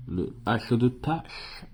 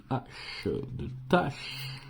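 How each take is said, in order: First: Said in the usual way. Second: À peine soufflé, sans voix; chuchoté. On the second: Real, not acted. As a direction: murmure le mot du bout des lèvres. Lit une lettre grattée. (« de tâche » soufflé sans voix, presque inaudible)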